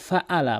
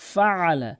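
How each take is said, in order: First: The middle consonant is a plain glottal stop. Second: The middle consonant is a throaty ain sound. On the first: The speaker calls it wrong. "আইনের জায়গাতে অধিকাংশ লোক হামজা এনে উচ্চারণ করে" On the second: The speaker calls it right. "বলতে হবে ফাআলা"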